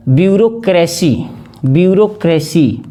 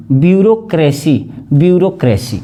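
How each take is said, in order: Both takes have the same delivery.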